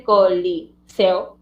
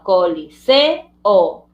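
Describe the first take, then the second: First: "coliseo" in chunks with seo run together; wrong syllable split. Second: "coliseo" slow, with se and o separated; correct syllable split. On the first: Teacher showing pupils the mistake, "coliseo" with seo as one syllable. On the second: Teacher giving the correct split, "coliseo" ending in two separate syllables. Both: Shown as a demonstration. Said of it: "no se hace así".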